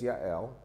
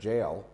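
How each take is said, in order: First: The name begins with a Y sound. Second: The name begins with a J sound. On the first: This is her actual name. The speaker calls it right. "but her name is Yael" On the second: This is how American churches often say it. The speaker calls it wrong. "in American English, many times in the church they call her Jael"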